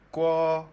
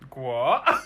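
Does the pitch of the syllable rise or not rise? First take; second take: not rise; rises. First: The pitch of the syllable does not rise. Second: The pitch of the syllable rises. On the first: It means pot. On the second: It means country.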